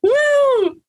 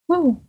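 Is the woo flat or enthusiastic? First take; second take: enthusiastic; flat. First: It is said loudly, with lots of energy. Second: It is said flatly, with little energy.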